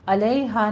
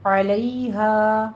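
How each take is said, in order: First: علیہا without a throat ain; علیہا missing the ain; wrong pronunciation. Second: Slow علیہا, the ع pressed from the throat; recited علیہا with a clear ain; correct ain. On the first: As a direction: say علیہا with a plain a at the start. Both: Shown as a demonstration. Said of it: "عین کی آواز نکالیے".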